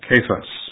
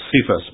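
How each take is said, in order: First: The name begins with a hard K sound. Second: The name begins with a soft S sound. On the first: "it's a harder sound" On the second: "We often say Cephas"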